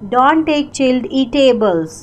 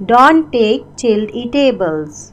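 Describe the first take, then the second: No difference in how they are said.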